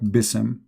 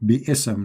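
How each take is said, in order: First: It is said as one syllable, bism. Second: It is said as two syllables, bi and ism. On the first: The speaker calls it wrong. "not bism" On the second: The speaker calls it right. "That is the correct Arabic word"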